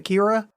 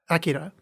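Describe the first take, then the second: First: The name is said with English-style pronunciation. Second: The name is said with Japanese-style pronunciation. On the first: The speaker calls it wrong. "anybody that cares that I'm saying it in quotes wrong" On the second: The speaker calls it right. "I feel like I'm trying to do a Japanese accent"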